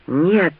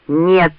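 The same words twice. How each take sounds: First: Mildly hoarse refusal. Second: Louder, firm refusal. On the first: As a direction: rasp out a refusal, restrained. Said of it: "прохрипел Ранд". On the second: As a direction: raise the voice to refuse. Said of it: "уже громче повторил Ранд". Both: A narrator's reading.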